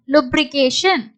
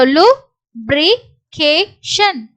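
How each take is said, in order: First: Said in the usual way. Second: Very slow, separated syllables. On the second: Shown as a demonstration. Teacher sounds out an unfamiliar word, syllable by syllable. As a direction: break "lubrication" into four pieces with gaps.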